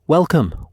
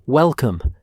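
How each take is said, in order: First: Big hearty boom, louder; booming welcome. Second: Hearty repeated boom, louder; booming welcome. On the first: Stefan greets Charlie with a booming welcome. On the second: Stefan repeats his welcome to Charlie, booming. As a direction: echo the greeting with a big voice. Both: A narrator's reading. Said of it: "Stefan boomed".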